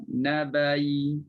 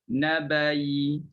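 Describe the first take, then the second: No difference in how they are said.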